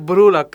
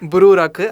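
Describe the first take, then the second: First: It is said with English pronunciation. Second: It is said with Japanese pronunciation.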